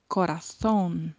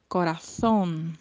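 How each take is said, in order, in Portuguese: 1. O z soa como th, com a língua entre os dentes. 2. O z soa como th, com a língua entre os dentes.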